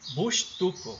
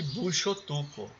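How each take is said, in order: First: It is said without a linking o vowel. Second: It is said with a linking o vowel. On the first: The speaker calls it right. "Aqui eu preferi bush, sem o, bushtuco, é assim que diz" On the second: The speaker calls it wrong. "é melhor de pronunciar do que bushotuco. Bushotuco está correto também"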